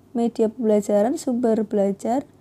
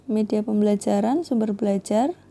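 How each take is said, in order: No difference in how they are said.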